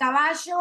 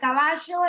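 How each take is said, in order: First: It is said with an Argentine accent. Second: The same.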